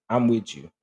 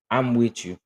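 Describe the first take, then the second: No difference in how they are said.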